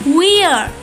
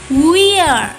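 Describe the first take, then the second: No difference in how they are said.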